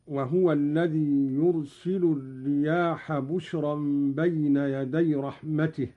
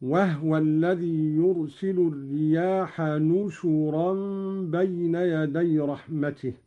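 First: Said in the usual way. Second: "نشرا" read "nushuran", with n for b and u on the shin; nun and damma. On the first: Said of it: "بالنون مكان الباء". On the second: Shown as a demonstration. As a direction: say "نشرا" as three syllables, nu-shu-ran. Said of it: "بالنون مكان الباء وضم الشين، هكذا".

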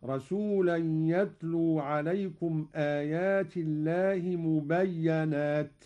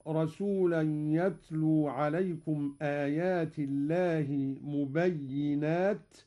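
First: مبينات with a fatha on the doubled ya, mubayyanat; Qalun reading. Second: مبينات with a kasra on the doubled ya, mubayyinat; standard reading. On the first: Teacher demonstrates Qalun's reading, doubled ya with fatha. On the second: Teacher recites the usual reading, mubayyinat. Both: Shown as a demonstration. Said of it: "قرأ قالون بفتح الياء مشددة".

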